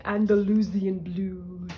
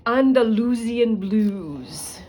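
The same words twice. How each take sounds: First: A hint of the professor's Romanian accent; lightly imitating the Romanian professor. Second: Put-on slow, loud, grand Romanian accent on Andalusian blues; imitating the professor's Romanian accent, savoring it. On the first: Greeting an Andalusian blue chicken, lightly Romanian-accented. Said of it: "I always say Andalusian blue". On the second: Recalling her genetics professor's phrase, in Romanian accent. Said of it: "in her words and accent".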